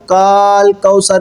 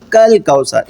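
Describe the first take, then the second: First: The first vowel is drawn out long. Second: The first vowel is kept short. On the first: The speaker calls it wrong. "काल कौसर नहीं पढ़ना" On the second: The speaker calls it right. "ये अलिफ गिर जाएगा"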